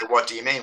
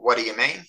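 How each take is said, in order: First: "What do you mean" with each word separate; careful word-by-word pronunciation. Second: "what do you mean" with words linked together; casual liaison. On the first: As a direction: keep "do you" as two distinct words. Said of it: "we don't say". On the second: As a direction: blend "what do you" into one everyday run. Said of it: "when we say". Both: Shown as a demonstration.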